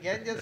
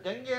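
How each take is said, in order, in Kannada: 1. ಈ ಪದ ಧ್ವನಿಸುವ s ನಲ್ಲಿ ಕೊನೆಗೊಳ್ಳುತ್ತದೆ. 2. ಈ ಪದ ಸ್ವರದಲ್ಲಿ ಕೊನೆಗೊಳ್ಳುತ್ತದೆ, s ಇಲ್ಲ. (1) "ಇದು ಗ್ಯಾಂಜಸ್ ಅಂತ ಇಂಡಿಯನ್ ಇಂಗ್ಲೀಷ್" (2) "ಅದು ಗಂಗೆ ಅಂತ ಉಚ್ಚಾರ / ಎಸ್ ಸೈಲೆಂಟ್"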